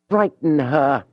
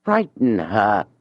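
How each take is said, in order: First: Julien bursts out over the book; sudden shout. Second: Slow, savoured, pleased with himself; drawn out like a motto he is proud of; proud repetition. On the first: Julien alone in his room, suddenly shouting the thought. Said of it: "he shouted all of a sudden". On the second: Julien alone, repeating his plan slowly and proudly. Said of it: "he went on repeating proudly". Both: Acted.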